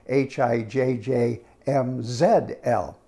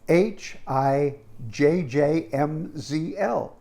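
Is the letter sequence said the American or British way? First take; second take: British; American. First: The letters are said in a British way. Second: The letters are said in a non-British way.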